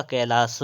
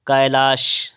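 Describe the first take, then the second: First: "कैलाश" slow, ending in s; corrected sibilant. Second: "कैलाश" ending in sh; wrong sibilant. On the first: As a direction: end "कैलाश" on a plain s, kailaas. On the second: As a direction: say "कैलाश" as kai-laash. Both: Shown as a demonstration. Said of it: "कैलाश होता है".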